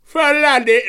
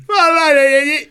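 First: High, loud cockney-style London voice; exaggerated London geezer; London accent. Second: Shrill hammed-up London geezer; high, loud mock cockney; London accent. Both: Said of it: "Do a London voice for me".

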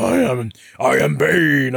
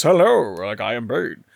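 First: Loud, brutish South American accent; put-on Colombian accent for a brute; Bane with South American accent. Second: Mock well-spoken RP British greeting; Bane in RP British. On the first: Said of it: "the Colombian or South American accent for Bane". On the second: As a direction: do a genteel RP British villain. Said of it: "And instead you're hearing this". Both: Shown as a demonstration.

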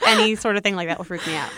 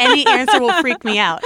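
First: Said in the usual way. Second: Loud exclamation stressing any; mock freak-out. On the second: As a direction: play up the panic on any. Comic freak-out, then repeated calmly.

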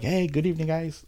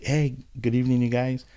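First: Higher, sing-song "Hey, good evening" to calm cops; overly sweet hello, hands up; extra-friendly greeting. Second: Polite, eager hello with hands raised; friendly greeting to cops. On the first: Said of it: "like that". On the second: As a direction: greet the officers cheerfully. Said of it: "like, like". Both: Retold or imitated.

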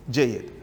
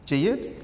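First: Falling low Jayyid; settled tune. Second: Rising question Jayyid; asking tune. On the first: Teacher confirms and moves on. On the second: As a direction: Jayyid asked with a rise, checking. Teacher checks class understands. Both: Real, not acted.

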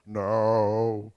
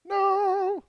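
First: Low, sustained choral note; bass part. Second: High, held, louder choral note; soprano part. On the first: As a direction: drop it down like a bass singer. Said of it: "The bass". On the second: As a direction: pitch it up like a soprano. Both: Shown as a demonstration.

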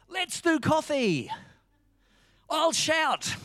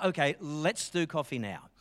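First: High, drawn-out eager shout; excited friend. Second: Said in the usual way. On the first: Retold or imitated. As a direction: imitate a mate leaping up, thrilled. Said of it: "he jumped up and he said". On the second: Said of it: "And so I said".

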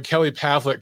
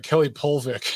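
First: Pavlik said PAV-lik, with the a of cat; the right way, PAV-lik; Kelly Pavlik said properly; correct name. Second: Polvik said POL-vik, with an o in place of the a; mock the wrong name, POL-vik; imitating the commentator's mispronounced Polvik. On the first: Shown as a demonstration. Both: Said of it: "kept calling Kelly Pavlik Kelly Polvik".

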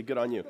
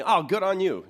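First: Said in the usual way. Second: High, loud exclamation of approval; loud, high-pitched pat on the back; acted hearty congratulation. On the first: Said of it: "not gonna do my Australian accent". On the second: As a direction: cheer someone on with a sudden lift in pitch. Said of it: "You'll do something".

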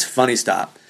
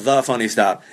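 First: Said in the usual way. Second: "The" punched as the wrong extra word; stress on THE. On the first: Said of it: "It's not called The Funny Stop". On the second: Shown as a demonstration. Comic correcting the club's name, stress on "The". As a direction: lean on "The" before Funny Stop. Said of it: "it's just called Funny Stop".

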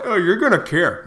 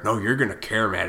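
First: Mocking a critic. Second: Said in the usual way. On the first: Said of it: "if I get sick".

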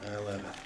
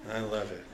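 No difference in how they are said.

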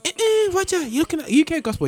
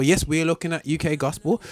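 First: High mock listener voice, a bit louder; squeaky pitch-jumped imitation of listeners. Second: Said in the usual way. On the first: Host mimics listeners telling him he is on UK gospel, high and mocking. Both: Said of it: "everyone's going".

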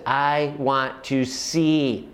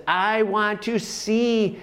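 First: Said in the usual way. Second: Slow, higher plea to see; raised plea. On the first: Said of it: "He says". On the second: Retold or imitated. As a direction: lift the plea up and draw it out. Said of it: "And he says".

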